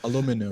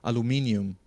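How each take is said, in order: First: It is said the North American way, with four syllables. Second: It is said the British way, with five syllables. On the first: "in Canada, they say aluminum" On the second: "Like here, they say aluminium"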